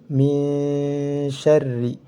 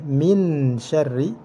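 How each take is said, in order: First: The n is hidden and nasalized, held longer. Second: The n is pronounced clearly and fully. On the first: The speaker calls it right. "harus dibaca samar" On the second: The speaker calls it wrong. "Tidak boleh"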